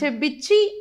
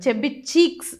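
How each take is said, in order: First: The final word is clipped and run together. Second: The final word ends fully with its final sound. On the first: This is how the Anglo-Indian teachers said it. "చెబ్బిచ్చి అంటారు" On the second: This is how local speakers say it. "చెబ్బి చీక్స్ అంటారు మన వాళ్ళు"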